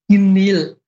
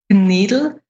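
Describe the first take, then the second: First: It has a soft G-like K and no D. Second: It has a soft, unaspirated G-like K and a D.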